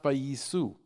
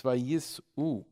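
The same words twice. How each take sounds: First: Vayisu run together as one smooth sound; wrong way. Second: Vayis'u slowly, with a clear break before the u; vayis'u said slow, the ayin gap sounded; correct pronunciation. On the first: Rabbi showing congregants the wrong reading, vayisu run together. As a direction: vayisu with no break in the middle. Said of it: "The word is not". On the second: Rabbi teaching the proper reading, vayis'u split slowly. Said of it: "The word is not vayisu. It's". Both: Shown as a demonstration.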